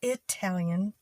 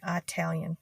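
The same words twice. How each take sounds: First: "Italian" with a short i, the proper way. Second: "Italian" with a flat a, her usual way; her own Italian. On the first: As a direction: say "Italian" as i-TAL-yan. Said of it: "the proper pronunciation". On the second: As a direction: say "Italian" as AT-talian. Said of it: "I've always said Italian". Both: Shown as a demonstration.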